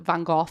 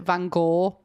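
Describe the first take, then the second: First: The name is pronounced the British way. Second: The name is pronounced the American way. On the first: "In the U K, we pronounce it Van Gogh" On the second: "Americans pronounce it Van Gogh"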